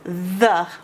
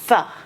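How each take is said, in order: First: The th sound is voiced, with throat buzz. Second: The th sound is voiceless, with no buzz. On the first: "The is the voiced the" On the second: "Or it can be pronounced th, like thumb"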